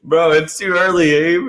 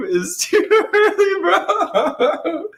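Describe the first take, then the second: First: Said in the usual way. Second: High laughing, drawn out. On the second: Real, not acted. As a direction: crack up while saying it. Same line, now cracking up.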